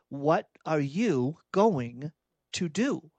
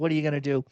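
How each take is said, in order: First: It sounds like a pointed, challenging demand. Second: It sounds resigned and powerless.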